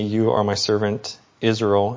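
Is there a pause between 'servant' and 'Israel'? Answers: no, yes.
no. Servant and Israel run together without a pause. Israel is the servant.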